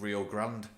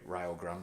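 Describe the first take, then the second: First: The name is said the familiar way. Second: The name is said the local way.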